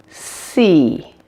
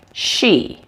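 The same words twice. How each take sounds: First: SEE with a long, clean S; correct S sound. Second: SHE with a hushed SH in place of S; wrong SH sound. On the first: Teacher contrasting it with "she", clear S in SEE. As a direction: stretch the hissed S in SEE, no SH. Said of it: "Make sure it doesn't sound like she". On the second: Teacher showing what to avoid, SH sound in SHE. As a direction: say SHE as the mistaken version of SEE. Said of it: "doesn't sound like she". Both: Shown as a demonstration.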